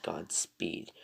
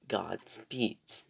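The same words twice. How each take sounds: First: "Godspeed" said slowly, ending on d; singular for contrast. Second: "Godspeeds" drawn out slowly with the final s; plural emphasised. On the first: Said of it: "I said Godspeeds". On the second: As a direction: stress the s ending of "Godspeeds". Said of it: "not Godspeed". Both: Shown as a demonstration.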